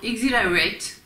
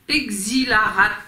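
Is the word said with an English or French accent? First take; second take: English; French. First: The word is said with an English accent. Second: The word is said with a French accent.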